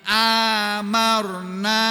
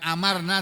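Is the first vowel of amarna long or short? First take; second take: long; short. First: The first vowel is said long. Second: The first vowel is said short. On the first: It means we made numerous. "amarna bil mad dengan mem- memanjangkan huruf alifnya" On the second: It means we commanded. "Bukan amarna"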